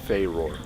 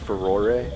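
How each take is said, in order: First: The name ends without an added final vowel. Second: The name ends with an added final vowel. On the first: "some people say it's just Faeror" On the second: "Some people pronounce it as Furore"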